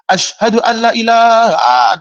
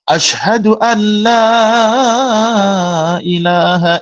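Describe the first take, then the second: First: The vowel in 'la' is cut short. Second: The vowel in 'la' is held long. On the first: It declares there is a god besides God. The speaker calls it wrong. "Jangan sampai pendek" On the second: It declares there is no god but God. The speaker calls it right. "La-nya panjang"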